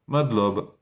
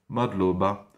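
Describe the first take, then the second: First: The final vowel is swallowed entirely. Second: The final vowel is fully pronounced. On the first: "ils bouffent le A, ça fait Madlob" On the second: "ils peut-être pensent-ils Madlob, Madloba"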